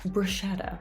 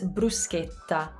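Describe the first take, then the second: First: It is said with an English pronunciation. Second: It is said with an Italian pronunciation. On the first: The speaker calls it wrong. "The way we say this word in English is bruschetta" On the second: The speaker calls it right. "Here's how you say it in Italian"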